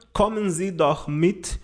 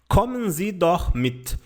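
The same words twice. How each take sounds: First: Slow German phrase rising at the end; slow model sentence ending on a rise; slow example sentence. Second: Slow, careful German model phrase; slow clear German example; slow example sentence. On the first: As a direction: read it slowly, lifting at the end. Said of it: "Aqui nós temos o verbo mitkommen". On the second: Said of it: "Um exemplo de frase é esta daqui". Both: Shown as a demonstration.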